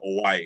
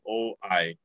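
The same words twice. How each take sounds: First: The two vowels glide together without a break. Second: A glottal stop separates the two vowels. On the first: The speaker calls it right. "it's perfectly fine to say oi instead of stopping between the" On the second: The speaker calls it wrong. "You don't have to say oi, ... because that sounds unnatural"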